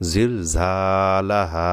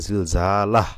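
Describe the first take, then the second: First: Slow জিল ঝালাহা with the final আ drawn long; জিল ঝালাহা ending on a long open আ; stretched stop. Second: জিল ঝালাহ cut off on a silent হ; জিল ঝালাহ wrongly closed, no final vowel; wrong closed stop. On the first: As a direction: hold the last হা of জিল ঝালাহা for one alif. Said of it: "এভাবে থামতে হবে". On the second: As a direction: clip জিল ঝালাহ short, stopping on the consonant. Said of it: "এভাবে সাকিন করা যাবে না কিন্তু". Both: Shown as a demonstration.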